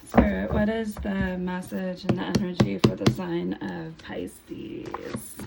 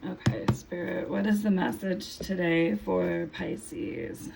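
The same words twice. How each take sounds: First: Louder, firmer repeat of the question; louder retake. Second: Losing her voice, just woke up; hoarse voice. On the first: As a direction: push through the hoarseness, call it out again. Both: Real, not acted. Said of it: "I'm losing my voice a little bit".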